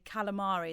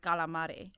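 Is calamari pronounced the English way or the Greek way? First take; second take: English; Greek. First: The word has an English-style pronunciation. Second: The word has a Greek-style pronunciation. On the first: Used with people who are not Greek. "if I'm say not with any Greek people, I might say calamari" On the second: The native pronunciation of the word. "instead of calamari"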